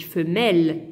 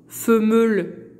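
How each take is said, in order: First: Femelle with a plain open e, said lower; teacher giving the correct form; right pronunciation. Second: Femelle said slowly as fémelle, wrongly; teacher showing the mistake; wrong pronunciation. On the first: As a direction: say femelle correctly, without an accent sound. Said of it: "Non, je dis femelle". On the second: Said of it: "je dis pas". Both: Shown as a demonstration.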